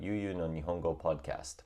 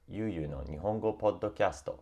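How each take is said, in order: First: Said in the usual way. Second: Japanese-accented "Podcasto", with an added final vowel; "Podcasto" in Japanese katakana-style pronunciation. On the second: Shown as a demonstration. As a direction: say the title the Japanese way, syllable by syllable. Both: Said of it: "or Yu Yu no Nihongo Podcasto".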